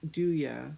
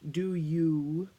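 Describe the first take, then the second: First: The word 'you' is reduced to 'ya'. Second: The word 'you' is said in full. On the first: It rhymes with hallelujah. "an informal pronunciation used to support the rhyme" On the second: It no longer rhymes with hallelujah. "he was pronouncing the word more formally"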